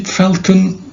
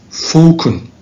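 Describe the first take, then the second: First: It is said with an American accent. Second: It is said with a British accent.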